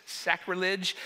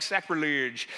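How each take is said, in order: First: Said in the usual way. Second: "Sacrilege" in a mock accent, last syllable rounded; put-on accent. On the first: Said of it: "say it like a normal person". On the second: Shown as a demonstration. Pastor sharing how he hears the word, put-on accent. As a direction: say "Sacrilege" with an affected accent, ending like "-ludge". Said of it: "I wanna say it with an accent".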